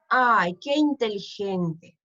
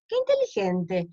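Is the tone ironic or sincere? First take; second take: ironic; sincere. First: It is said mockingly, with irony. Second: It is said sincerely, as real praise.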